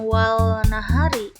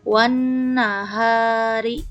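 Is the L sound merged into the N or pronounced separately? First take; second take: pronounced; merged. First: The L is pronounced clearly before the N. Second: The L is merged into a doubled N sound. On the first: The speaker calls it wrong. "bukan wal nahari" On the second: The speaker calls it right. "tapi langsung lamnya dilewat melebur kepada huruf nun"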